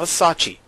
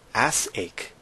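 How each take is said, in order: First: It is run together as one word, 'a-sachi'. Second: It is split into two words, 'ass' and 'ache'. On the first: The speaker calls it wrong. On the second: The speaker calls it right. "I'm gonna say it right this time"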